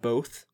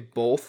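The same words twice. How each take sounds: First: The word is said without any L sound. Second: The word is said with an added L sound. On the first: The speaker calls it right. "instead of both" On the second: The speaker calls it wrong. "I always say both"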